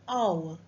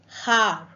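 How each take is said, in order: First: The word starts with a vowel, no h sound. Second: The word starts with an audible h sound. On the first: The speaker calls it right. "it's hour" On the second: The speaker calls it wrong. "not har. So H is silent"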